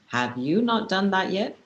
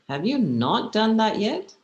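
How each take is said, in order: First: It sounds demanding, like giving orders. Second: It sounds impatient, as if the listener is slow.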